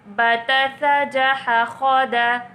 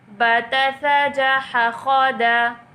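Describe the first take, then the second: Both takes have the same delivery.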